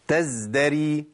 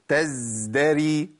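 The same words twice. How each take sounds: First: The z sound has normal, steady friction. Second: The z sound is held too long. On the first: The speaker calls it right. "أنا كده جبت الرخاوة مظبوطة جدا" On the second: The speaker calls it wrong. "زودت الزمن"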